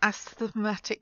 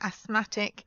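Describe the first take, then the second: First: The TH sound is pronounced in the middle. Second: The TH sound is silent in the middle. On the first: The speaker calls it wrong. "It's not asthmatic because that would be really difficult to say" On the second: The speaker calls it right. "it's asthma or asthmatic"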